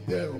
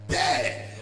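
First: The word is said plainly, without commanding force. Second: The word is said forcefully, as a command. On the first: The speaker calls it wrong. "quand tu dis terre, non" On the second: The speaker calls it right. "il faut dire terre. Commande"

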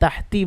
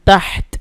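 First: The word ends on an added vowel. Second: The word ends on a stopped consonant. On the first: The speaker calls it wrong. "তাহতি বলা যাবে না" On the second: The speaker calls it right. "তাহত এই তায়ের উপরে এসে থামতে হবে কেমন"

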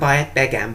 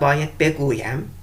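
First: The verb is pronounced in a shortened form. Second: The verb is pronounced in its full form. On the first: This is the form used in everyday speech. "konuşurken bayet begem" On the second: This is the form used in writing. "yazımda bayet beguyem"

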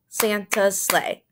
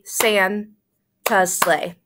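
First: The last syllable is long, the others short. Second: The first syllable is long, the others short. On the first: The speaker calls it right. "So let's look at ti ti ta now. Santa's sleigh. Ti ti ta. Santa's sleigh. That fits" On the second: The speaker calls it wrong. "let's look at ta ti ti first for Santa's sleigh. That would be San-ta's sleigh. Does that sound right?"

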